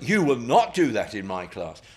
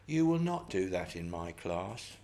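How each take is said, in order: First: It is said in a loud, raised voice. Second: It is said in a quiet, calm voice. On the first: The speaker calls it right. "raising your voice will help" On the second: The speaker calls it wrong. "You don't say"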